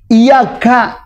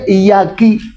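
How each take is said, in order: First: The final syllable is pronounced ka. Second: The final syllable is pronounced ki. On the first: It addresses a male. The speaker calls it right. "iyyaka yang kita bacakan begitu" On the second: It addresses a female. The speaker calls it wrong. "tapi dibaca sama dia iyyaki, merubah makna ya"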